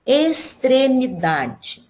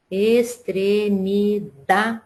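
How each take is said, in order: First: Said in the usual way. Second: Extremidade very slowly, es-tre-mi-DA-de, pause before the last syllable; stress on DA. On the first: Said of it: "a primeira palavra é". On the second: Shown as a demonstration. Teacher showing pupils the stressed syllable, DA held out. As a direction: split extremidade into syllables and hold the DA. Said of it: "a sílaba que a gente pronuncia com mais força".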